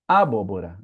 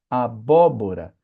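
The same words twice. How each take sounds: First: The stress is on the first syllable. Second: The stress is on the second syllable. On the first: The speaker calls it wrong. "jamais você vai ver uma palavra como" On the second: The speaker calls it right. "Quando está na antepenúltima"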